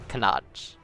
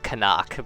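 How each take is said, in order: First: The name ends in a throaty ch sound. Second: The name ends in a hard k sound. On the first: The speaker calls it right. "but like Kanach" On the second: The speaker calls it wrong. "it's not Kanak"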